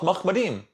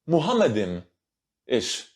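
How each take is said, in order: First: The word begins with a short 'mah' sound. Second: The word begins with a longer 'muham' sound. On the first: The speaker calls it right. "all Hebrew linguist scholars are unanimous that the word is pronounced Mahmadim" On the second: The speaker calls it wrong. "sorry, Muhammadim-ish"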